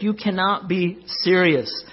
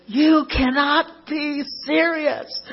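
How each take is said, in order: First: The same protest quoted only slightly raised and slowed; a calm half-hearted echo of the outburst; mild retold shout. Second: High, slow, drawn-out mock outraged yell; McEnroe yell. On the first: Pastor retelling McEnroe's line to the church, mild mock shout. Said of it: "he shouted". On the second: McEnroe yelling at the chair umpire, mock outrage. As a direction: belt it out like a furious tennis star. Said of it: "like, yells, he goes".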